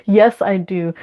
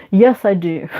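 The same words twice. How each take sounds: The two takes are said the same way.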